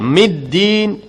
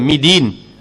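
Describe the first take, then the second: First: The d sound is doubled and pressed. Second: The d sound is single and light. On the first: The speaker calls it right. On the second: The speaker calls it wrong. "jangan midin"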